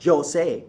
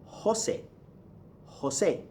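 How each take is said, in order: First: Jose said slowly as "jo-SAY"; slow Jose opening on an English j; wrong English J. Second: Jose said "ho-SEH", softly, breathy h; Jose with h and a crisp s. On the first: Teacher ruling out the mistake, slow Jose with j. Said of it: "It's not Jose". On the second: Teacher giving the correction, Jose as "ho-SEH". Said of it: "gives you the H sound". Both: Shown as a demonstration.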